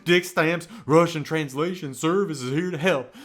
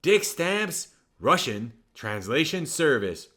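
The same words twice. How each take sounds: First: The ad name in a swaggering [name] voice; [name] impression. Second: Said in the usual way. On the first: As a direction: sell it like the King himself. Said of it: "just like [name] himself". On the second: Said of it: "Commercial break number two".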